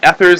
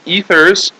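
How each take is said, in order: First: The first vowel is a short e sound. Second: The first vowel is a long e sound. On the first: The speaker calls it wrong. "This is not ethers" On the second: The speaker calls it right. "this is like a, a long E here"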